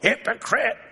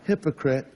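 First: The word is spat out with accusing force. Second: The word is said flatly, without force. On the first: It is meant as an insult. The speaker calls it right. "you have to say it like that too" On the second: It is a plain mention without insult. The speaker calls it wrong. "You don't just say"

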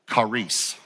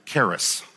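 First: The word has a Greek pronunciation. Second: The word has an English pronunciation. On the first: "I'm going to pronounce it in Greek first" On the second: "which we pronounce it charis"

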